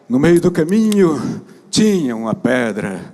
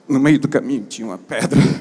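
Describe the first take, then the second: First: It is read in a grand, pompous way. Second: It is read in a natural, everyday way.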